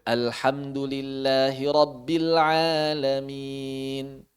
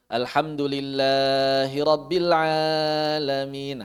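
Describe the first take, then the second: First: "Alhamdulillahi Rabbil Alamin" chanted slowly, long vowels held; slow recitation. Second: "Alhamdulillahi Rabbil Alamin" chanted very slow, the mad held too long; exaggerated wrong tajwid; overlong recitation. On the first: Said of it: "Sengaja memanjangkan tidak boleh". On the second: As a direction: stretch every long vowel past its length. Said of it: "Nah, itu kepanjangan". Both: Shown as a demonstration.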